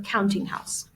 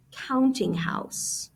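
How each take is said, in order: First: Said in the usual way. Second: Counting house drawn out slowly, leaning on "counting"; slow, careful emphasis. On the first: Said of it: "so I put in parentheses here". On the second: Shown as a demonstration. Teacher slowing down a new term for students, drawn out. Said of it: "I'm gonna put in parentheses".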